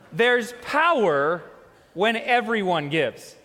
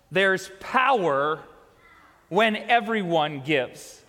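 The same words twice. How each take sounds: First: It is said with more excitement and energy. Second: It is said with ordinary, lower energy.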